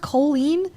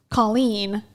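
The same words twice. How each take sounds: First: "Colleen" with a long "oh" first vowel; alternative pronunciation. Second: "Colleen" with an open "ah" first vowel; first pronunciation. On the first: Streamer asking how it is pronounced, "Colleen" as KOH-leen. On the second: Streamer naming the podcast co-host, "Colleen" pronounced KAH-leen. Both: Shown as a demonstration. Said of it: "Is her name pronounced Colleen?".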